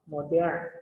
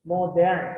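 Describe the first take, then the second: First: Said in the usual way. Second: "Modern" said again, louder, with its two syllables MO-dern set apart; syllables marked. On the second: Shown as a demonstration. Teacher counts syllables of "Modern" aloud, stressing each beat. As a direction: tap out "Modern" as MO-dern for the class. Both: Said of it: "two syllables".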